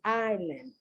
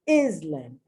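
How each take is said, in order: First: The S in the middle is silent. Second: The S in the middle is pronounced. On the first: The speaker calls it right. "The word is island" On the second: The speaker calls it wrong. "It is not, and I've heard this a zillion times by native speakers"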